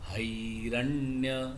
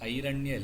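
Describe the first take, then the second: First: The word starts with a breathy h sound. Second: The word starts directly with a vowel. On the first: The speaker calls it right. "ஹை தொண்டையிலேருந்து உள்ளேருந்து வரணும்" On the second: The speaker calls it wrong. "ஐரண்ய இல்லை"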